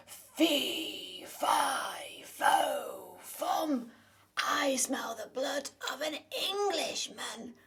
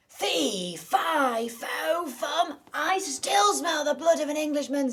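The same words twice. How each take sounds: First: Big loud giant voice, slow and menacing; booming giant. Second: Very loud, higher bellowing giant; roaring giant. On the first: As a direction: roar it like a hungry giant. Giant enters, child gets scared. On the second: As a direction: bellow it to shake the castle. Giant wakes and roars. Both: Acted.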